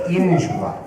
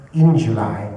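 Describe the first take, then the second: First: "In" pushed hard, the rest dropping; mock stress on in. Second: "in" of "in July" leaned on; stress on in. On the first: Shown as a demonstration. Sneer the in. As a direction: Welles mocking the note by stressing "In". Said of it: "Love to know how you emphasize in". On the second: Retold or imitated. Lean on in. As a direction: director asking Welles to hit "in". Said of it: "Could you emphasize a bit in".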